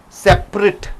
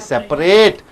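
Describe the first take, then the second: First: The stress is on the first syllable. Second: The stress is on the last syllable. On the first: It is used as an adjective. The speaker calls it right. "So you have to say separate" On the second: It is used as a verb. The speaker calls it wrong. "You don't say separate"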